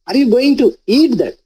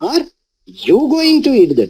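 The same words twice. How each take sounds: First: The stress is on the word eat. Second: The stress is on the word you.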